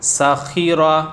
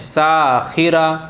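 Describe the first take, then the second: First: No vowel is drawn out; all are short. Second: The vowel of the first syllable is drawn out. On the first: The speaker calls it right. "ज़ेर ज़बर पेश को बिल्कुल भी नहीं खींचना है" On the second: The speaker calls it wrong. "सीन को खींच दिया।"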